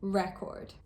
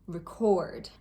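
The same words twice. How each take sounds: First: The stress is on the first syllable. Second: The stress is on the second syllable. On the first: It is used as a noun. "with two-syllable nouns, the stress is placed on the first syllable" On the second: It is used as a verb or adjective. "with two-syllable verbs or adjectives, the stress is usually placed on the second syllable"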